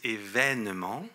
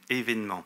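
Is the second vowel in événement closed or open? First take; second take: open; closed. First: The second vowel is an open 'è' sound. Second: The second vowel is a closed 'é' sound. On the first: "dans la vitesse et certaines régions, certains disent" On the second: "je le prononce comme il est écrit à l'origine, avec deux accents aigus"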